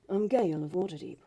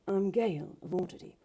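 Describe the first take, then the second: First: It is said in a clear voice. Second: It is said in a breathy voice.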